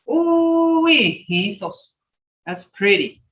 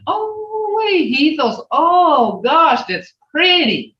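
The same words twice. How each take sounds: First: Said in the usual way. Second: Much higher, oh wee that's pretty; admiring exclamation. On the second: Shown as a demonstration. Teacher demonstrating delight at a child's find, high and gushing. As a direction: gush over something pretty.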